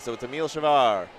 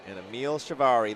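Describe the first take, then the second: First: The name is said without a final vowel sound. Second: The name is said with a final vowel sound. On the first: The speaker calls it right. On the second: The speaker calls it wrong.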